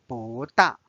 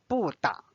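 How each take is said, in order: First: 不大 with 不 rising in a second tone; correct tone change. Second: 不大 with 不 in a falling fourth tone; deliberately wrong 不大, 不 falling sharply. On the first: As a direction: say 不 as bú, rising, before the falling 大. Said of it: "It should be read as". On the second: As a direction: say 不 as bù, falling, before 大. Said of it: "So it's not read as". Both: Shown as a demonstration.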